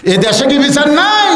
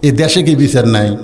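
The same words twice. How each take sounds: First: Very high, shouted indignant question; acted high-pitched protest; outraged shout. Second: Said in the usual way. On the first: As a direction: shout it as an outraged wife demanding justice. Wife's outburst, repeated louder.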